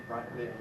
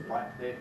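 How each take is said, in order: No difference in how they are said.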